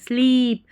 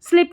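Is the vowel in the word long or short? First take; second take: long; short. First: The vowel is long and stretched. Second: The vowel is short and clipped. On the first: The speaker calls it right. "लॉन्ग ई का उच्चारण खींच के" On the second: The speaker calls it wrong. "इसको स्लिप नहीं पढ़ना"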